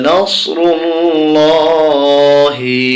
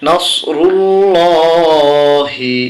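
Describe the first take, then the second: Both takes have the same delivery.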